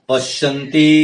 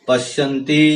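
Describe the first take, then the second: The two takes are said the same way.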